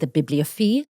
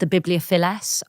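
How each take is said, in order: First: The name is pronounced in a French style. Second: The name is pronounced in a Latin style. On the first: "if we were being strictly French about it, we would say" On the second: "Or the Latin, wasn't it?"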